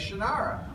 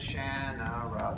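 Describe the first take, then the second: First: It is said in the popular, common way. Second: It is said in the author's original way. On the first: This is how the fans say the name. "Everybody says Shannara" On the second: This is how the inventor of the name meant it. "You divide the end"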